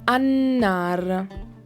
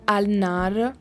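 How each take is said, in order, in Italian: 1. La L scompare e la n si raddoppia. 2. La L dell'articolo si pronuncia chiaramente. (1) "pronuncio in modo rafforzato la lettera nun" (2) "in realtà io non pronuncio al nar"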